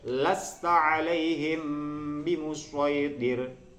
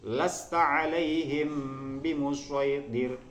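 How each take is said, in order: Both takes have the same delivery.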